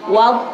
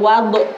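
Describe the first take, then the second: First: The final consonant stops without any echoing bounce. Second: The final consonant ends with an echoing bounce. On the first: The speaker calls it right. "Cukup wadh, wadh seperti itu" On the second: The speaker calls it wrong. "nggak boleh memantulkan sampai ada de-nya"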